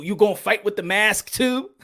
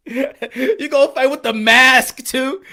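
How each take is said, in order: First: Said in the usual way. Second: Slower and louder through laughter; laughing. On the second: Real, not acted. Streamer mocking masked fighters, laughing repeat. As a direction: laugh while asking it again.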